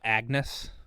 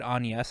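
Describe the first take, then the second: First: The g is pronounced as a hard g. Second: The g is silent in the name. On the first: The speaker calls it wrong. "I was gonna be so mad if she said" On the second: The speaker calls it right. "you say Agnes and not pronounce the G"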